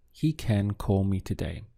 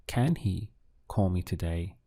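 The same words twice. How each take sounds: First: "He can call me today" as a statement, falling at the end; "He can call me today" with a plain, falling declarative tune; statement intonation. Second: "Can he call me today" asked as a question; English yes-no question tune on "Can he call me today"; question intonation. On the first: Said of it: "just as a statement". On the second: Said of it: "turn that into a question". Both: Shown as a demonstration.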